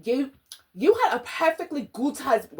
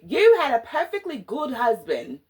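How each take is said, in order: First: Put-on first try at a British accent, slightly off; "You had a perfectly good husband" in a loose, half-right British accent; wrong British accent. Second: Corrected take, mock British accent, a bit louder; "You had a perfectly good husband" in a playful mock British accent. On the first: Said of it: "Wait a minute, no, that's not it". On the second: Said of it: "Let me do my accent".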